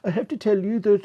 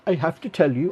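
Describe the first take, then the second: First: It is said in a generic Scandinavian accent. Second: It is said in the speaker's own accent.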